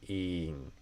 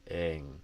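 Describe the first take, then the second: First: The vowel is a long ee sound. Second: The vowel is a short ih sound. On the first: This is how some regional accents say it. "more of a e sound in the ing" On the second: This is the speaker's own way of saying it. "more of a kit vowel"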